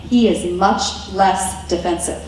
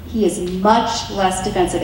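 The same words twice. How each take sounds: First: Said in the usual way. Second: Much leaned on, repeated for emphasis; stress on much. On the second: Shown as a demonstration. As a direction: land hard on the word much.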